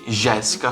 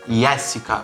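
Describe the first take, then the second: First: The name begins with a ZH sound. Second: The name begins with a Y sound. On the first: This is how the name is read in Brazil. "como seria no Brasil para nós" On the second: This is how the name is read in this country. "aqui, teoricamente, a pronúncia seria Jéssica"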